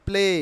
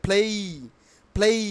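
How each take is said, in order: First: "play" with a flat single vowel "ple"; wrong pronunciation. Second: "play" with a gliding "ei" ending; correct pronunciation. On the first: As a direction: say "play" without the final glide. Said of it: "not play". ("play"-কে প্লে বলে) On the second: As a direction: say "play" as "phlei". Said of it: "কি উচ্চারণ হবে". ("play"-কে ফ্লেই বলে) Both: Shown as a demonstration.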